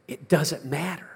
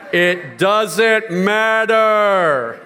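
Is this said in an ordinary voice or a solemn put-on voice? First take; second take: ordinary; solemn. First: Spoken in an ordinary everyday speaking voice. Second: Spoken in a solemn, put-on preaching voice.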